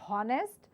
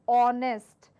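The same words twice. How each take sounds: First: The word begins with an h sound. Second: The word begins with a vowel sound. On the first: The speaker calls it wrong. "certainly not honest" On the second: The speaker calls it right. "but it's honest"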